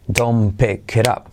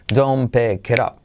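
No difference in how they are said.

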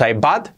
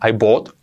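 First: The vowel in bought sounds like an A. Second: The vowel in bought sounds like an O. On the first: "No es una A, no es I bought" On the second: "tampoco es una O. I bought, no"

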